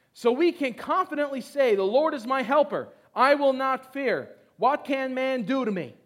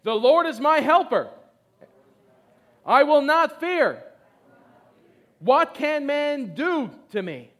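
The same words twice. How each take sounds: First: Loud, firm declaration; confident reading. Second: Loud, slow, bold declaration; confidently. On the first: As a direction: declare it boldly. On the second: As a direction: proclaim each line with certainty. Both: Shown as a demonstration. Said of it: "everyone say confidently".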